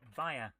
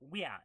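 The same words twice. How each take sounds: First: The word is said with an English pronunciation. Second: The word is said with a Latin pronunciation.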